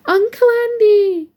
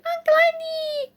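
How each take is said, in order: First: Put-on high, loud, drawn-out child's cry; excited child's greeting. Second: Very high, thin, stretched-out squeal; excited child's squeal. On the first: Nearly four-year-old godson greeting his uncle, excited high shout. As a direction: call out in delight like a small child. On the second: Small godson running to the door, ecstatic high squeal. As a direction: squeal it right at the top of your voice. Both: A narrator's reading. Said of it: "It's greeted".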